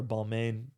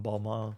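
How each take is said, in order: First: "Balmain" said as bal-MAIN, rhyming with "main"; "Balmain" ending like "mane"; anglicized pronunciation. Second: "Balmain" said as bal-MAH, silent n; "Balmain" ending in a soft "mah"; French-style pronunciation. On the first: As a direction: say "Balmain" the English way, with a clear "mayn" ending. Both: Shown as a demonstration. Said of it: "Y'all know the correct, correct pronunciation".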